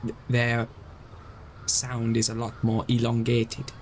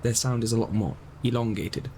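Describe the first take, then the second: First: Failed Chinese accent. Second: Retried Chinese accent. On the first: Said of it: "That was terrible". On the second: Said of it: "That one was terrible". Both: Shown as a demonstration.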